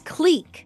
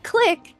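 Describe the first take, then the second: First: The vowel is a long ee sound. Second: The vowel is a short i sound. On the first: The speaker calls it right. "it is clique" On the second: The speaker calls it wrong. "not click"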